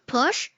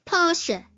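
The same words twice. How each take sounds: First: Porsche as one syllable, no final E; English-style Porsche with a silent E; Porsche the wrong English way. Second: German Porsche in two syllables, POR-shuh; Porsche ending in an audible schwa; Porsche with the E pronounced. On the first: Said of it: "not Porsche". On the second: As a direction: sound the final E of Porsche as "uh". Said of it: "Pronounce the E". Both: Shown as a demonstration.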